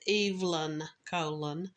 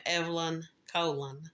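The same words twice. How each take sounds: First: "Evelyn" said EEV-lin, with long ee; alternate name pronunciation. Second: "Evelyn" with short e, "Colon" as KOH-lun; host's own pronunciation. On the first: Host correcting a victim's name, "Evelyn" demonstrated as EEV-lin. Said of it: "I've heard her name pronounced". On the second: Host warning listeners, "Evelyn Colon" shown as EV-lin KOH-lun. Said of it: "you will hear me". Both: Shown as a demonstration.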